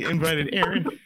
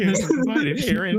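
First: The voice is steady without any quiver. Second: The voice quivers and trembles throughout.

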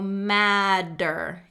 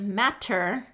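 First: The middle consonant is a soft D sound. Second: The middle consonant is a crisp T sound. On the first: "we're getting a D sound, madder" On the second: "instead of saying that t-t-t sound"

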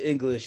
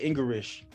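First: The word is said with a standard accent. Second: The word is said with a Chinese accent. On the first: "instead of English" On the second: "she said English"

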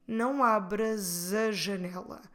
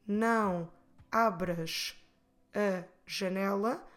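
First: The S runs into a as a Z sound. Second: The words are said separately, with a break. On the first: The speaker calls it right. "we'll try to run it together to flow better and we say" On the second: The speaker calls it wrong. "instead of split the words and say"

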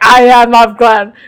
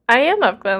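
First: It is said in an intense, staring tone. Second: It is said in an innocent, casual tone.

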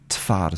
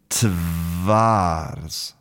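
First: The second consonant is a voiceless f. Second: The second consonant is a voiced v. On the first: "So the v becomes f" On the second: "So it should be tvars"

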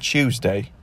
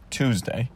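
First: It starts with a ch sound. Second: It starts with a clean t sound. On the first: The speaker calls it wrong. "not palatal fricative, Ch" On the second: The speaker calls it right. "Alveolar stop sound, T"

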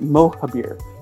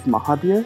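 First: The first syllable is stressed. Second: The first syllable is not stressed. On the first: This pronunciation helps people find the name more easily. "So there's accent on the O" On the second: This is the pronunciation the owner of the name prefers. "I like my name to be pronounced [name]"

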